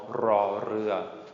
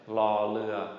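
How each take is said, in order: First: It starts with a rolled R sound. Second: It starts with an L sound, no rolled R. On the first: This is the formal way of speaking. The speaker calls it right. "I think it's best to know ra rua" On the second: This is the informal way of speaking. The speaker calls it wrong. "no roll on the R"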